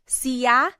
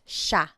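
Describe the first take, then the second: First: The word is said in its full form. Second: The word is said in a shortened form. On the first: "it looks like it should be pronounced siya" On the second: "but it's usually pronounced siya"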